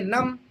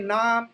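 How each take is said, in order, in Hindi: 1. स्वर छोटी 'uh' ध्वनि है। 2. स्वर लंबी 'ah' ध्वनि है। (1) "कोई कह दे नम, बोलते हैं गलत" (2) "अगर कोई उसको पढ़ दे नाम, बोलते हैं गलत"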